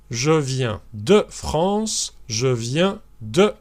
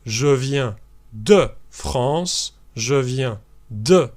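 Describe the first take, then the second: No difference in how they are said.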